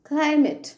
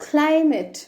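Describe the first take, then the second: No difference in how they are said.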